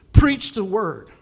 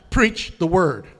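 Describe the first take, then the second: First: Slow, loud "Preach the word" with weight on "Preach"; emphatic command. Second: Loud "Preach the word", hit "Preach" hard; emphatic command. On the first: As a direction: bark it like an order. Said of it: "verse two". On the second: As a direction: say it like an order from God. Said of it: "No, it's emphatic". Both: Acted.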